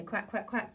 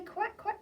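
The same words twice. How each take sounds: First: Said in the usual way. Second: High quacking; high pretend duck. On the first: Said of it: "Oh, they don't say". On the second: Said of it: "the ducks, who say".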